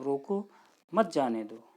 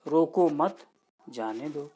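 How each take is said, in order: First: रोको, a clear pause, then मत जाने दो; pause after रोको. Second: Group रोको मत, then let जाने दो drop; pause after मत. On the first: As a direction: break between रोको and मत जाने दो. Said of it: "यहाँ पे विराम का चिन्ह है". (रोको के बाद विराम, फिर मत जाने दो) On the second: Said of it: "और तीसरे में है". (रोको मत के बाद विराम, फिर धीमे जाने दो) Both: Shown as a demonstration.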